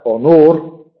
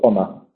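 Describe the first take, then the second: First: The stress is on the second syllable. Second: The stress is on the first syllable. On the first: This is the older Middle English pronunciation. "Era honor en inglés medio" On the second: This is the modern English pronunciation. "en inglés moderno solo podemos pronunciarlo honor"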